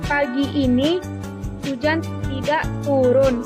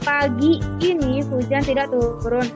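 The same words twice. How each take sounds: First: The stress falls on "tidak turun". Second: The stress falls on "pagi ini". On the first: "Penekanan pada kata tidak turun" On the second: "Penekanan pada kata pagi ini"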